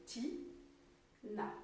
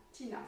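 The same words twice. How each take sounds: First: "Ti-na" softly split by a pause; soft "Ti", gap, then "na"; two separate syllables. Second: Said in the usual way. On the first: Shown as a demonstration. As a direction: say "Ti-na" as two quiet beats. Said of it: "La deuxième syllabe". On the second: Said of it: "c'est son prénom".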